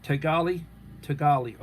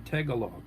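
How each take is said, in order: First: "Tagali" said as tuh-GAH-lee; corrected pronunciation. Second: "Tagalog" said as TAG-uh-log; alternative pronunciation. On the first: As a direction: stress the middle of "Tagali", ending in lee. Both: Shown as a demonstration.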